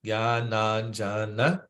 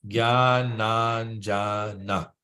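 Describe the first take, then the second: First: "Gyananjana" slowed into separate syllables; broken into syllables. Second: "Gyananjana" said very slowly, syllable by syllable; broken into syllables. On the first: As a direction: take "Gyananjana" apart syllable by syllable. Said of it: "So we break it down into syllables". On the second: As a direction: spell out "Gyananjana" one syllable at a time. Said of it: "Break it down into syllables". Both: Shown as a demonstration.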